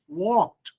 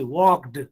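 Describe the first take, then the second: First: "walked" ending in a crisp t sound. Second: "walked" ending in a voiced d sound; wrong d ending. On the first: Teacher correcting students' past tense, "walked" with t ending. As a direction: say "walked" as "walkt". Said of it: "The sound". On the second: Teacher showing students what not to say, "walked" with voiced d. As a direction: say "walked" with a heavy d at the end. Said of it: "Don't say walked". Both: Shown as a demonstration.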